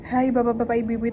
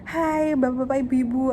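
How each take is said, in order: First: It is said in a flat, plain voice. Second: It is said in a cheerful, smiling voice. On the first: "itu aja udah beda dengan intonasi" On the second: "intonasi yang smiling voice gitu. Jadi kayak teman-teman ceria"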